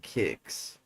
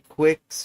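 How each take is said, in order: First: The word begins with a plain k sound. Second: The word begins with a kw sound. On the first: The speaker calls it right. "kicks is the proper way to say it" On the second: The speaker calls it wrong. "Do you say quicks"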